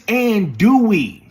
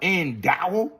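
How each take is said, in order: First: The word ends with a 'dooey' sound. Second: The word ends with a 'dow' sound. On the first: The speaker calls it right. "It's andouille" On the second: The speaker calls it wrong. "It ain't no endow"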